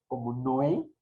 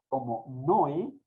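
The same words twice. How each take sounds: The two takes are said the same way.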